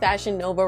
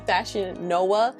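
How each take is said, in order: First: Nova is said with a V sound. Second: Nova is said with a W sound. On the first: The speaker calls it wrong. "we're pronouncing Fashion Nova wrong" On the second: The speaker calls it right. "It should actually be Fashion Noah"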